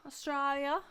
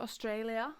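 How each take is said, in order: First: Attempted Australian accent. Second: Said in the usual way. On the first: Shown as a demonstration. Podcast host repeats the country's name in a clumsy Australian accent. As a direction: have a bad go at an Australian accent. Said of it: "try your Australian accent one more time". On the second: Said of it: "try your Australian accent".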